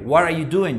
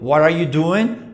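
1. La voz baja al final. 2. La voz sube al final. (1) "estas que se empiezan con W H son con entonación descendente" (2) "Yo no digo"

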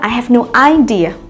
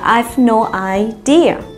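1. Trọng âm trong idea nằm ở âm tiết thứ nhất. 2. Trọng âm trong idea nằm ở âm tiết thứ hai. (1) "Tuyệt đối không nói là" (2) "mà là"

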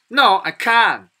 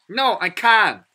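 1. 미국 억양으로 말한 거예요. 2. 미국 억양으로 말한 거예요.

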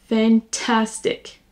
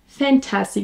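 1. L'accent est sur la deuxième syllabe. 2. L'accent n'est pas sur la deuxième syllabe. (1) "on accentue sur la deuxième syllabe" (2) "je ne dis pas fantastic"

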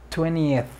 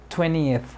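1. El sonido de la t del medio se omite por completo. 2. El sonido de la t del medio se omite por completo.

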